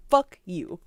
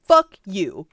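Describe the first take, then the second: First: Mock prosecutor fuck you. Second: Prosecutor's flat fuck you. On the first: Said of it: "something about that is really funny". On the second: Retold or imitated. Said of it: "the prosecutor is like".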